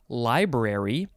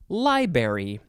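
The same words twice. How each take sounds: First: Both R sounds are pronounced. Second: The first R sound is dropped. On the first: The speaker calls it right. "there's two R's" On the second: The speaker calls it wrong. "some people like to say library"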